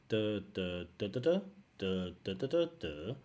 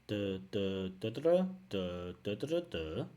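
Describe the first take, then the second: The two takes are said the same way.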